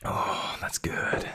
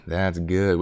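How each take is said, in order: First: Unvoiced whisper of approval; a hushed that's good; whispered praise. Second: Said in the usual way. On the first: Real, not acted. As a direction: breathe it to yourself. Whisper before plain repeat.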